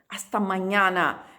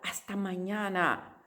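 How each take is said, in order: First: The a vowels sound open and clear. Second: The a vowels sound closed and nasal. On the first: The speaker calls it right. "La A en español es siempre abierta" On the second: The speaker calls it wrong. "No puede ser hasta mañana"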